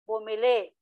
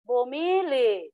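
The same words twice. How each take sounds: First: Stress on the last syllable, no final glottal stop. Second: Stress on second-to-last syllable, no final glottal stop. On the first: The speaker calls it right. "diing mabilis man siya" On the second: The speaker calls it wrong. "malumay na to"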